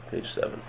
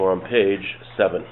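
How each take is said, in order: First: Repeated under the breath in a whisper; whispered aside. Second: Said in the usual way. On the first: Real, not acted. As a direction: whisper the page number to yourself.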